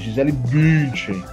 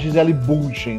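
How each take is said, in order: First: The first vowel of the surname sounds like 'ee'. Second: The first vowel of the surname sounds like 'oo'. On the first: The speaker calls it right. "É Gisele Bündchen" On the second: The speaker calls it wrong. "Ninguém fala Gisele Bündchen"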